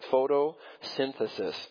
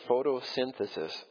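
First: The word is said slowly and carefully. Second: The word is said at normal speed.

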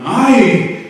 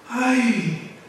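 First: It is said in a stern, judging tone. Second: It is said in a soft, pitying tone. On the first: The caller is about to punish a wrongdoing. "The first one, I, is judgment" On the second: The caller feels sorrow and compassion for the wrongdoer. "mercy, pity"

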